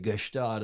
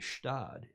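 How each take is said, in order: First: The G is clearly pronounced with a vowel. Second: The G is almost silent before the S. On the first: The speaker sounds like an unsophisticated outsider. The speaker calls it wrong. "you don't say Gestad unless you're a hick from, from Michigan" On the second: The speaker sounds like an informed insider. The speaker calls it right. "You say Stad. The G is almost silent"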